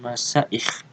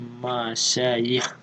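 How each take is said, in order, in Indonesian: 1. Konsonan tengah adalah hamzah. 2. Konsonan tengah adalah bunyi y. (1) "bukan masyayikh ... la bil hamz" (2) "tapi masyayikh bil ya"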